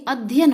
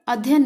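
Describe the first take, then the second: First: अध्ययन said "addhyan", DH held before Y; doubled cluster. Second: अध्ययन said "adhyan", with a single light Y; simplified cluster. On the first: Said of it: "ध आधा रहेगा". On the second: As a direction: run अध्ययन together as "adhyan". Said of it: "नहीं अध्ययन होता". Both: Shown as a demonstration.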